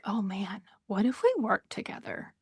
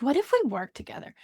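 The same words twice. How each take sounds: First: A hushed, hopeful aside to yourself; hushed inner thought. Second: Quicker, brighter repeat of the same question; eager repeat. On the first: To herself, wondering about working with the host, hushed. Imagined thought while reaching out. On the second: Repeating her idea to the host, quick and eager. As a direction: say it again with eager momentum. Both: Retold or imitated.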